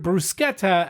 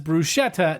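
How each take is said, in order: First: The 'sch' is said with a hard K sound. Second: The 'sch' is said without a hard K sound. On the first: The speaker calls it right. "C H is pronounced as a hard K sound" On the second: The speaker calls it wrong. "knock it off"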